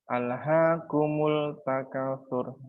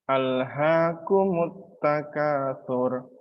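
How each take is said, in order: First: The L is clearly pronounced before the T. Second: The L is absorbed into a doubled T. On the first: The speaker calls it wrong. "bukan alhaakumul takatsur. Salah" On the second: The speaker calls it right. "lamnya langsung hilang dan dengan langsung masuk ke huruf ta"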